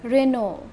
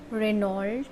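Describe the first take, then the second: First: Renault as "reh-NO", silent L and T; Renault, French-style with no final consonants; correct Renault pronunciation. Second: Renault as "reh-NOLT", sounding the final letters; wrong Renault pronunciation. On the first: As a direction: say Renault ending on an open O. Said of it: "but it's Renault". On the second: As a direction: say Renault with the L heard. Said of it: "It's not Renault". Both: Shown as a demonstration.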